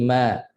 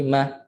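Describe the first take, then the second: First: "ma" held for one complete beat; full beat. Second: "ma" clipped to half a beat. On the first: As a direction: give "ma" its whole short-vowel length. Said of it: "satu harakat itu kena sempurnakan". ("ma" satu harakat sempurna) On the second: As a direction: cut the vowel of "ma" short. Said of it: "itu setengah harakat". ("ma" setengah harakat) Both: Shown as a demonstration.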